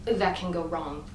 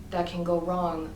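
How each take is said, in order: Both takes have the same delivery.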